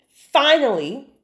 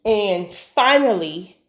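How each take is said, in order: First: "finally" stretched slowly with a higher rising end; drawn-out finally. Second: Said in the usual way. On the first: Shown as a demonstration. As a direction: draw out "finally" slow and rising, full of relief.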